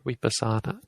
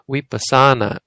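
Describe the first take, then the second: First: No syllable is drawn out or stressed. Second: One syllable is drawn out and stressed.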